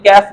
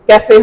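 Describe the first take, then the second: First: The word is said as one syllable. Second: The word is said as two syllables. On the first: It follows the usual spelling rules. The speaker calls it wrong. "अगर हम English के हिसाब से देखें तो ये कैफ बनता है" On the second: It keeps the pronunciation of its source language. The speaker calls it right. "लेकिन ये कैफे हम पढ़ते हैं"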